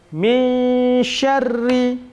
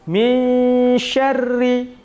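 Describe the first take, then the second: No difference in how they are said.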